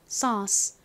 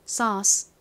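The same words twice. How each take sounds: First: It is said the American way, with an uh vowel. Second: The same.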